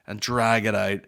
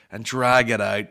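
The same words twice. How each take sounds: The two takes are said the same way.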